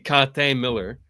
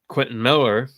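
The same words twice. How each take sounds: First: The name is pronounced the French way. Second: The name is pronounced the English way. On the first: "in French, it would be [name]" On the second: "I always said [name] because he's he's got an English name"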